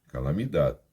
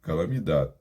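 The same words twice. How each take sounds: First: Calamidade with Portuguese final dee-ee ending; wrong Portuguese way. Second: Calamidade with the last syllable chopped short, as if startled; cut off ending. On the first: Teacher showing students the wrong pronunciation. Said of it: "não é calamidade". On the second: Teacher showing students the clipped Spanish ending. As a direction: stop Calamidade abruptly on the d, no vowel after. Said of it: "você interrompe como se fosse no susto". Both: Shown as a demonstration.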